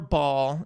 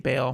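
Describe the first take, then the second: First: The name is said as two syllables, bah-al. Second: The name is said as one syllable, like bale. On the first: This is how many scholars say it. "is how like a lot of scholars pronounce it" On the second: This is how members of the religious group say it. "the witnesses say"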